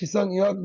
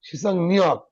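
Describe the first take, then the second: First: The second word starts with a y sound. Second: The second word starts with an n sound. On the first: The speaker calls it wrong. "এটা আসলে সিসাং ইয়ক না" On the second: The speaker calls it right.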